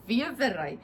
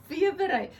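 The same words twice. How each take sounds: First: "Wevery" said the Afrikaans way, VEE-uh-vuh-ray with a v sound; "Wevery" with a v at the start and an ay at the end; Afrikaans word. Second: "Wevery" said again as VEE-uh-vuh-ray, with a v and an ay at the end; "Wevery" with a v at the start and an ay at the end; Afrikaans word. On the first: Showing her viewers, "Wevery" as an Afrikaans word. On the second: Correcting herself for viewers, "Wevery" as Afrikaans. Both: Shown as a demonstration. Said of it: "Wevery in Afrikaans".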